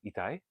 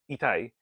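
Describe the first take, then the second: First: "Itai" asked with the pitch rising at the end; "Itai" as a soft question, voice going up; rising question tune. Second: "Itai" said as a statement with a falling end; "Itai" stated flat, dropping at the end; statement tune. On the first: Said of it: "in a rising intonation". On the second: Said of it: "telling her". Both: Shown as a demonstration.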